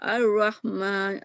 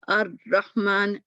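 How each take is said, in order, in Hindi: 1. ‘r’ की आवाज़ आधी बंद रहती है और गूंजती रहती है। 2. ‘r’ की आवाज़ पूरी तरह बंद हो जाती है। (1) "कहीं भी आवाज़ बंद नहीं हुई" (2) "देखिए आवाज़ ही बंद हो गई"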